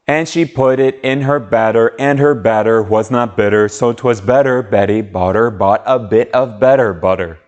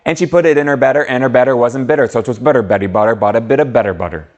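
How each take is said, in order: First: It is said at a faster pace. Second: It is said as fast as possible.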